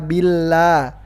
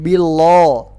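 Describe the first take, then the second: First: The L is light, with a clear vowel. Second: The L is heavy, with a dark vowel. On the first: The speaker calls it right. "dibaca tipis lam" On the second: The speaker calls it wrong. "Kenapa bukan billo?"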